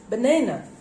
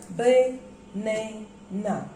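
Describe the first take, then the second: First: Said in the usual way. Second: Banana split slowly into ba, na, na; syllable by syllable. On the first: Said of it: "The word is banana". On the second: Shown as a demonstration. Teacher counting syllables for students, banana in three slow parts. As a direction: draw out banana with a gap between syllables. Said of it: "How many syllables are there?".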